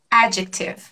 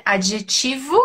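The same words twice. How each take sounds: First: Adjective stressed first, AD-jek-tiv; English adjective. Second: Adjetivo stressed at the end, -TI-; Portuguese adjetivo. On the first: Teacher contrasts the English adjective. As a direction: hit the AD of adjective. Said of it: "ela é no começo". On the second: Teacher contrasts the Portuguese Adjetivo. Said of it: "sílaba mais forte ser no final". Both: Shown as a demonstration.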